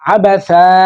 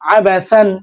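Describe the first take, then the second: First: The word ends with a long 'a' sound. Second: The word ends with an 'an' sound. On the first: The reading stops at this word. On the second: The reading continues past this word.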